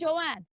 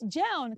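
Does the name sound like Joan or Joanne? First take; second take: Joanne; Joan. First: The name is said as Joanne. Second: The name is said as Joan. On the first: The speaker calls it wrong. "So it's not Joanne" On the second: The speaker calls it right. "It's Joan"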